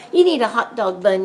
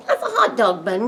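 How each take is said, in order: First: Said in the usual way. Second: Amused self-correction with a laugh; laughing at herself. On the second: Real, not acted. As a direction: laugh through the fix. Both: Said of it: "What's wrong with me?".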